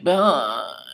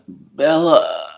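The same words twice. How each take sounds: First: Sung, sing-song moaned Bella. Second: Moaned Bella, higher and louder; sexual moan. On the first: Mocking how Edward almost moaned, as a sung moan. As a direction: croon the name like a little tune. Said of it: "or, like, singing like". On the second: Mocking how Edward almost moaned, as a sexual moan. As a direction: moan the name as if in bed. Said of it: "'Cause it would be a sexual one". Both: Shown as a demonstration.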